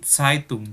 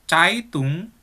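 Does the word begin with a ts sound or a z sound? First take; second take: ts sound; z sound. First: The word begins with a hissing ts sound. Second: The word begins with a voiced z sound. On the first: The speaker calls it right. "tapi Zeitung" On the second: The speaker calls it wrong. "Bukan Zeitung"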